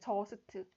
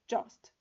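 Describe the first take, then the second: First: Each consonant gets its own vowel, making three syllables. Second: The consonants attach to one vowel in one syllable. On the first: The speaker calls it wrong. "자음 위주로 이렇게 써지는 거예요" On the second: The speaker calls it right. "사실 한 글자 단어거든요"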